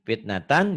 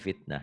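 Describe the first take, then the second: First: The word ends with the full '-tan' syllable. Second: The word ends with a soft 'h' sound. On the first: The reader continues without stopping. "dibaca apa adanya" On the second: The reader stops at this word.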